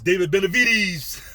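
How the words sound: It is said in a put-on imitating voice.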